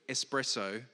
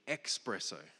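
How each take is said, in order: First: The word begins with an 'es' sound. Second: The word begins with an 'ex' sound. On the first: The speaker calls it right. "the word espresso" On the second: The speaker calls it wrong. "was actually expresso"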